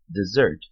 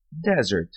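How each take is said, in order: First: Desert stressed on the second syllable, deSERT; verb stress. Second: Desert stressed on the first syllable, DEsert; noun stress. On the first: (Desert com tônica na segunda sílaba, deSERT) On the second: (Desert com tônica na primeira sílaba, DEsert) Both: Shown as a demonstration. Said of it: "sílaba tônica diferente".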